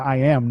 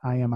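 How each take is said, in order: First: It is said with firm conviction. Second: It is said without conviction. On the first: The speaker truly believes it. The speaker calls it right. "when you're believing it strong enough, you're saying it with I am" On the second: The speaker is just saying the words. The speaker calls it wrong.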